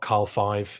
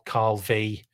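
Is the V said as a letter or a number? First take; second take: number; letter. First: The V is said as a Roman numeral. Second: The V is said as the letter vee. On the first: The speaker calls it wrong. "not Carl V" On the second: The speaker calls it right. "just a V for victory"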